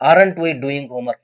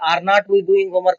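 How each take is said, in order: First: Not is contracted into one syllable with are. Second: Are and not are said as separate words. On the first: The speaker calls it right. "Short form ದಲ್ಲೇನೆ pronounce ಮಾಡಿದೆ" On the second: The speaker calls it wrong. "ಅಂತ ಹೇಳ್ಬಾರ್ದು"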